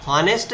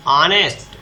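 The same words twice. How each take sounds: First: हॉनेस्ट said with a sounded h, as the wrong way; wrong pronunciation shown. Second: ऑनेस्ट with a silent h, starting on the vowel; correct pronunciation shown. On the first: Teacher to students, showing the wrong हॉनेस्ट with a sounded h. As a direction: voice the h in हॉनेस्ट to show the mistake. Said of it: "इसका उच्चारण हॉनेस्ट नहीं हो रहा है". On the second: Teacher to students, giving the right ऑनेस्ट with silent h. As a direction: drop the h and open straight on ऑ in ऑनेस्ट. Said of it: "क्या उच्चारण हो रहा है इसका". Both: Shown as a demonstration.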